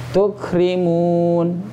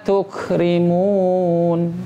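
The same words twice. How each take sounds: The two takes are said the same way.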